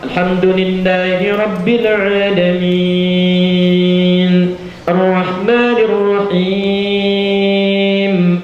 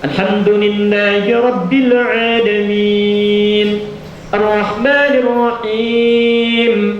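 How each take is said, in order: First: Long vowels are stretched out, recited slowly. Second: Long vowels are held moderately, at medium pace. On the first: Suited to praying alone, most complete. "Misal enam harakat, tiga detik" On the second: Suited to leading the main audible prayers. "dua detik, empat harakat ya"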